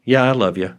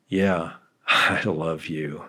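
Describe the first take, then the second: First: Said in the usual way. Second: Slow, soft, grudging I love you; reluctant, half-laughing yeah. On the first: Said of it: "When I say". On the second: Shown as a demonstration. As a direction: drag it out like you barely mean it. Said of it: "the way you say what you say".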